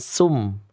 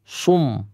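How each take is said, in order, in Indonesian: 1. Huruf s tipis, lidah turun. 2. Huruf s tebal, lidah naik. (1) "Bukan sum" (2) "Harus dalam kondisi ... isti'la ... Otomatis tafkhim ya"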